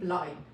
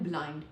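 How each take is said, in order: First: The final d sound is dropped. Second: The final d sound is clearly pronounced. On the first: The speaker calls it right. "लेकिन try करें ब्लाइंड" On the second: The speaker calls it wrong. "हम लोग कहते हैं ब्लाइंड"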